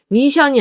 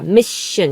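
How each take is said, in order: First: The middle consonant is a plain, short sh. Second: A slight s sound leads into the sh. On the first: The speaker calls it wrong. "미션이 아니라" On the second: The speaker calls it right. "시옷 받침 같은 소리가 살짝 들려야 돼요"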